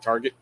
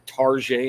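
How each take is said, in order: First: It is said with the plain, everyday pronunciation. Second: It is said with a fancy, foreign-sounding pronunciation. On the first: It names the thing in the ordinary way. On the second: It makes an ordinary thing sound upscale.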